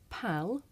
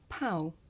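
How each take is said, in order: First: The final L sound is clearly pronounced. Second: The final L sound disappears into the vowel. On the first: "So I can say pal" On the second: "this can actually make the l sound disappear"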